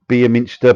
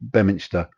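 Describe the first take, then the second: First: The first syllable sounds like 'beem'. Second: The first syllable sounds like 'bem'. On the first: It is read as it is spelled. The speaker calls it wrong. "it's written Be" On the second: It is said the way local people say it. The speaker calls it right. "locals call it Bem"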